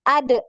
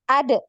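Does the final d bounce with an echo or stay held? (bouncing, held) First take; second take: bouncing; bouncing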